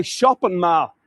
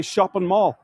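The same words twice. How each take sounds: First: "mall" in "shopping mall" as "mal", short a; Irish "shopping mall". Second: "mall" in "shopping mall" as "mawl", long aw; North American "shopping mall". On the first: Guide showing how the Irish say it, "mall" as "mal". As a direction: say "shopping mall" with "mall" rhyming with "pal". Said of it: "So we say shopping mall". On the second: Guide mimicking North American viewers, "mall" as "mawl". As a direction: say "shopping mall" with "mall" rhyming with "hall". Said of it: "You guys say shopping mall". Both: Shown as a demonstration.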